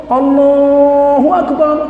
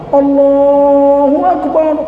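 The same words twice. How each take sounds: The two takes are said the same way.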